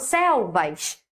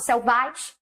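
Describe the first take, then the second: First: The stress is on the first syllable. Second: The stress is on the second syllable. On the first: The speaker calls it right. "Qual é a sílaba mais forte? Céu" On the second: The speaker calls it wrong. "Eu não falo selvais"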